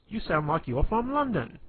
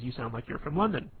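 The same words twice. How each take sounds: First: High, loud mock-British accent; British accent impression. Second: Said in the usual way. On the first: Quoting a comedy film character, hammed-up British accent. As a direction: put on an exaggerated British accent, pitched way up. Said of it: "impersonation of, like, a British accent". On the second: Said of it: "he kind of does this".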